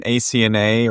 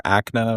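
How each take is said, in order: First: A C N A said letter by letter; spelled-out initials. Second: A C N A run together as one word, "ACK-nah"; A C N A as a spoken acronym, not letters. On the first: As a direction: say A C N A as four separate letters. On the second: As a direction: pronounce A C N A like the word "ACK-nuh". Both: Shown as a demonstration. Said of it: "or however you wanna say that".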